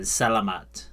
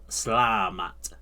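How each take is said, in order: First: A vowel is kept between s and l. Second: The first vowel is dropped, giving slamat. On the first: "rather than Salamat" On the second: "she doesn't really pronounce the e at the beginning. So she does the sla- Slamat"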